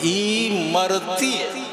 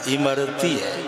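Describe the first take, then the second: First: The first syllable is stressed and set apart. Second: The word flows smoothly without extra stress. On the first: Someone is dying for something. The speaker calls it wrong. "ई पर जोर दे दिया" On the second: It names the sweet. The speaker calls it right. "कहना था इमरती है"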